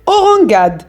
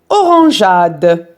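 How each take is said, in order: First: The g sounds hard, as in go. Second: The g sounds soft, like the s in measure. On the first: The speaker calls it wrong. "si on supprime e, on va prononcer" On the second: The speaker calls it right. "pour bien prononcer le son je"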